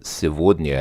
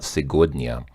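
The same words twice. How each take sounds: First: The middle consonant sounds like a v. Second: The middle consonant sounds like a g. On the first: "the G is kind of pronounced like a V, because she just I'm pretty sure she distinctly said сегодня" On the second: "this is usually сегодня because it uses the Russian G"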